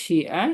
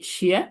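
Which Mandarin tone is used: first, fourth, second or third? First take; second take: third; second. First: The syllable is said with the third tone. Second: The syllable is said with the second tone. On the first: It means write. "তিন নম্বর টোন শিয়া" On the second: It means shoes. "Second tone অর্থ কি শিয়া"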